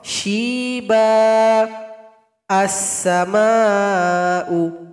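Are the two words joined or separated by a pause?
paused. It stops after the first word, without the n. "Kalau kita berwaqaf"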